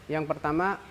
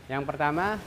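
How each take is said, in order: The two takes are said the same way.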